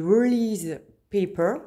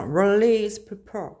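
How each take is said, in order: First: Said in the usual way. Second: Slow, showy English accent on "Release paper"; jokingly exaggerated English accent on "Release paper". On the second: Shown as a demonstration. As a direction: drawl "Release paper" like a native English speaker, stretching each word. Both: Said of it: "Vous avez vu mon accent?".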